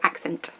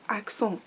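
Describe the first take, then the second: First: It is pronounced with an English pronunciation. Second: It is pronounced with a French pronunciation.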